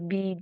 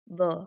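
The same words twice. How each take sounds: First: It is said as the full letter name. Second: It is said as a short bare consonant sound. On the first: The speaker calls it wrong. "don't read like" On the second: The speaker calls it right. "No, it's"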